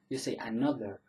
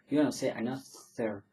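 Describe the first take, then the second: First: The th sound is voiced, with buzzing. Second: The th sound is voiceless, without voicing. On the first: The speaker calls it right. "You say another. ... that would be a voiced th" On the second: The speaker calls it wrong.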